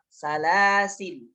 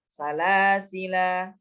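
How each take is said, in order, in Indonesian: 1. Kata ini berakhir dengan konsonan l. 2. Kata ini berakhir dengan bunyi vokal. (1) "Atau tidak dibaca" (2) "ketika wakaf alifnya dibaca"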